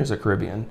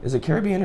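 First: "Caribbean" with stress on RIB; second-syllable stress. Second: "Caribbean" with stress on CARE and BE-an; first-syllable stress. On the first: Co-host asks which pronunciation, "Caribbean" as kuh-RIB-ee-un. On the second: Co-host asks which pronunciation, "Caribbean" as care-uh-BEE-un. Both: Shown as a demonstration. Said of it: "Is it pronounced Caribbean or Caribbean".

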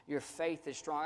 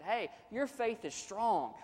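First: Said in the usual way. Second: Higher, slow, uplifting reassurance; encouraging affirmation. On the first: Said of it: "He said". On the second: Acted. Pastor voicing encouragement to a struggling believer, higher and slow. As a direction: lift him up with it. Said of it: "words of affirmation like that".

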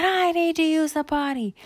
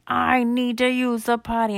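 First: Put-on very high kid voice; high-pitched copycat plea; urgent little girl. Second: Put-on high, loud kid voice; raised-pitch potty emergency; urgent little boy. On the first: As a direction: pipe up urgently in a much higher girl's voice. Candy urgently needs toilet too. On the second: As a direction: plead urgently as a small boy. Bar urgently needs toilet.

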